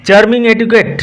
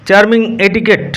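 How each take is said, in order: Both takes have the same delivery.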